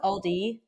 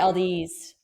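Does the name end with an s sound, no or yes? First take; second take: no; yes. First: The name ends on a vowel sound. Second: The name ends with an added s sound. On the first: The speaker calls it right. "you know how it's Aldi?" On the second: The speaker calls it wrong. "I add the S"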